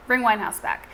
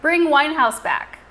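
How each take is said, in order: First: Said in the usual way. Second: Slow, loud, deliberate reading; slow and emphatic. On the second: Shown as a demonstration. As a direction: spell the name out slowly and loudly. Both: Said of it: "I read that like a robot".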